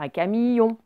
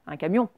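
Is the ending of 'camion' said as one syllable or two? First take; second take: two syllables; one syllable. First: The ending is split into two syllables. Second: The ending is blended into one syllable. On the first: The speaker calls it wrong. "on dit pas un camion" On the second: The speaker calls it right. "on ne l'entend pas bien quand on parle"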